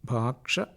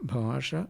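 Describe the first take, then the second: First: A k sound is added before the sh sound. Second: The sh sound comes with no k before it. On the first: The speaker is trying to seem educated. The speaker calls it wrong. "എന്നായിരിക്കും അത്തരക്കാർ പറയുക" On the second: The plain pronunciation is enough. The speaker calls it right. "എന്നൊക്കെ പറഞ്ഞാൽ മതിയെങ്കിലും"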